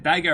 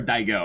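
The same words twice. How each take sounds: First: Daiga, ending on an open "ah"; Daiga, not rounded at the end; name ending in -ga. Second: Daigo, ending on a round "oh"; name ending in -go. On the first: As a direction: say Daiga with "guh" or "gah" last. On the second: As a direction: say Daigo with "go" as the last syllable. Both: Shown as a demonstration. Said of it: "is it Daiga or Daigo? I don't".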